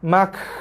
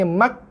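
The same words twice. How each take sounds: First: A large rush of breath follows the final consonant. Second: No breath at all follows the final consonant. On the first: "longgar keluar nafas bersepah-sepah pun tak boleh" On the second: "tak keluar langsung nafas"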